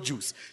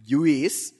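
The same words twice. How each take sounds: First: It is said as one plain syllable, juice. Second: It is said like jew followed by is. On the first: The speaker calls it right. "It's just not juice" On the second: The speaker calls it wrong. "My mom says, juice, so it's G-J-E-W-I-S"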